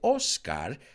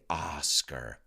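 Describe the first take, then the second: First: The name is said with a Spanish pronunciation. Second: The name is said with an English pronunciation. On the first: The speaker calls it wrong. "you don't say Oscar" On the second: The speaker calls it right. "you pronounce it correctly when you say it in English"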